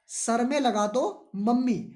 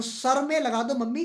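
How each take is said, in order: First: Put-on pleading child. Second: Put-on sing-song child. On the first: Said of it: "क्या कहा". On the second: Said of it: "तो".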